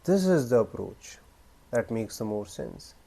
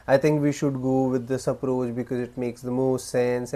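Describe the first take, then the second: First: Long pause first, then calm and firm; measured statement, broken by a pause, falling low at the end; powerful delivery. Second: Unemphatic, rambling statement trailing into filler; weak delivery. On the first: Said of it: "But powerful way is". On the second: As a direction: run it on in one breath, no pauses. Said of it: "the weak idea is". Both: Shown as a demonstration.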